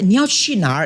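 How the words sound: The words sound rounded, in a mainland Chinese accent. "they are from China because they like to bulatkan their words"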